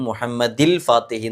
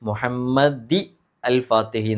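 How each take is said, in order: First: The words are joined with 'il' and no n sound. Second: A separate 'al' is said with no n sound. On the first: "തെറ്റ് വരും" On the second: "എന്നല്ല"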